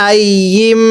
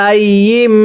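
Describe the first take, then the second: No difference in how they are said.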